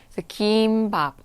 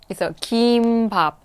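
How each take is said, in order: Both takes have the same delivery.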